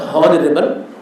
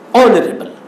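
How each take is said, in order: First: The h at the start is pronounced. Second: The h at the start is silent. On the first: The speaker calls it wrong. "That is not honorable" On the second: The speaker calls it right. "That is, my dear students, honorable"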